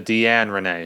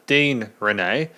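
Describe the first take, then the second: First: The first name is said as Deanne. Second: The first name is said as Dean. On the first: The speaker calls it right. "It's actually [name]" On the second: The speaker calls it wrong. "I mispronounced the musician's name"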